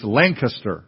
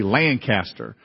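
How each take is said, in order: First: Lancaster squeezed to LANK-uh-ster; local pronunciation. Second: Lancaster with a long, drawn-out LAN and a full CAST; wrong pronunciation. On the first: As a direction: stress only the first syllable of Lancaster, reduce the middle. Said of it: "It's Lancaster, right? Is that right?". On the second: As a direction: say Lancaster as two weighty parts, LAN-CASTER. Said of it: "I won't say it right". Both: Shown as a demonstration.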